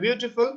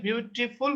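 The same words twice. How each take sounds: First: Said in the usual way. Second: beautiful spaced out as biu, ti, ful; syllable by syllable. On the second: Shown as a demonstration. Teacher counting syllables in an example word, syllable by syllable. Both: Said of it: "তিনটা".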